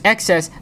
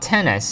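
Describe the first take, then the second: First: The X is read as the letter X. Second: The X is read as the number ten. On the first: The speaker calls it right. "I pronounce it as XS" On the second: The speaker calls it wrong. "not 10S"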